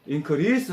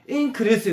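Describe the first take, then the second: First: The stress is on the second syllable. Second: The stress is on the first syllable. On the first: It is used as a verb. "increase 하면 증가하다" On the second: It is used as a noun. "increase 이러면 증가"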